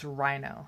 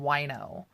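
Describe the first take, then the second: First: The name begins with an R sound. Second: The name begins with a W sound. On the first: The speaker calls it right. "But it's Rhino" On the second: The speaker calls it wrong. "I always called him Wino"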